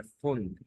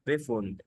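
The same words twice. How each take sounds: First: فوند said slowly with a plain F and no B sound; slow, clear model of فوند starting on F; correct pronunciation. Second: بيفوند said with a wrong B sound before the F, as a student says it; wrong pronunciation. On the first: Shown as a demonstration. Teacher corrects the class's German: فوند. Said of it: "البي اف هنا بتنطق معانا اف". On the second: Retold or imitated. Teacher imitates a student's wrong German بيفوند. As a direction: mimic a student mispronouncing بيفوند with an extra B. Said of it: "لا، هي فوند".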